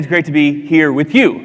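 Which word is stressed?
you. The stress falls on the word you. The people are what make it great. "I would also say"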